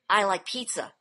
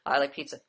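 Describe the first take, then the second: First: It is said expressively, with personal feeling. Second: It is said flat and monotone, without feeling.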